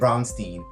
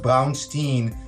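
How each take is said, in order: First: The name is said with an American English pronunciation. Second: The name is said with a German pronunciation. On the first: This is how the owner says it in the US. "but I pronounce it Braunstein uh, here in the U S" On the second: This is how it is said in Germany. "in Germany it would be pronounced Braunstein"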